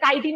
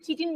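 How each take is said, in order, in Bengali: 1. শব্দটি k ধ্বনি দিয়ে শুরু হয়। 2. শব্দটি ch ধ্বনি দিয়ে শুরু হয়। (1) "এটাকে কাইটিন বলবে" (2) "এটাকে কেউ চিটিন বলবে না"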